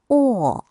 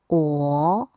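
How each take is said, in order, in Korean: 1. 이 음절은 네 번째 성조로 발음합니다. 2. 이 음절은 두 번째 성조로 발음합니다.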